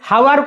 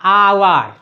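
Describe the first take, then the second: First: The word starts with a sounded h. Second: The word starts with a vowel, no h. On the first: The speaker calls it wrong. "हावर कोउने हमें" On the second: The speaker calls it right. "आवर हला"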